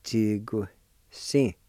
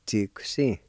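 First: Chi-gu-si drawn out slowly, syllable by syllable; slowed-down model of Chi-gu-si; slow Cherokee pronunciation. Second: Chi-gu-si said at natural speed, chee-goo-see; Cherokee pronunciation at normal speed. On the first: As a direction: break Chi-gu-si into its syllables for the class. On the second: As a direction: say Chi-gu-si smoothly as one word. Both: Shown as a demonstration. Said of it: "you can pronounce that Q with the T S I like this".

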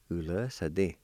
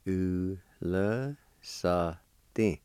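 First: Said in the usual way. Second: "Ule sa din" drawn out very slowly; syllable by syllable. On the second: Shown as a demonstration. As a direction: break "Ule sa din" into separate, held syllables. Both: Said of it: "It's pronounced like this".

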